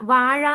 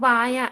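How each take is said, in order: First: The middle consonant is the retroflex zha sound. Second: The middle consonant is a plain ya sound. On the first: This is the adult form of the word. The speaker calls it right. "ഴ ആ ഴ വാഴ എന്നുള്ളതിന്" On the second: This is how a small child says it. The speaker calls it wrong. "എന്റെ മോനും അങ്ങനെ പറയാം"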